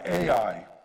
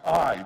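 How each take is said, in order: First: The name is said with two syllables. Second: The name is said as one syllable. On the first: The speaker calls it wrong. "we've all been pronouncing it wrong all these years" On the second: The speaker calls it right. "It's really pronounced I. The A is silent"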